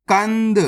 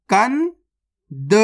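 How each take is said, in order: First: Said in the usual way. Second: कंद very slowly, kan rising, long pause, then da; split into syllables. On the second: Shown as a demonstration. Teacher breaking a word down for learners, split into syllables. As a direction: sound out कंद in two separate parts. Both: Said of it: "direct मात्रा का उच्चारण करके पढ़ेंगे".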